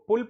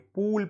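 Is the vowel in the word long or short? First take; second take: short; long. First: The vowel is kept short. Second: The vowel is held long. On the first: The speaker calls it right. "इसको पुल पढ़ना है जिस पे छोटा ऊ की मात्रा है" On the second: The speaker calls it wrong. "पुल को क्या पढ़ देंगे? पूल पढ़ देंगे"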